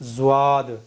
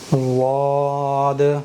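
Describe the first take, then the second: First: The first sound is a z followed by w. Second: The first sound is a heavy, thick emphatic d. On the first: The speaker calls it wrong. "यहाँ वाव भी आ रहा है और ये जा भी बन रहा है" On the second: The speaker calls it right. "सही है"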